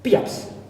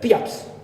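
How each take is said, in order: First: It is said quickly, dropping the vowel and r. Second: The same.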